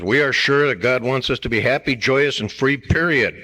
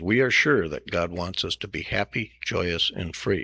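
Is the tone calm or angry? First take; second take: angry; calm. First: It is read in an angry tone. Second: It is read in a calm tone.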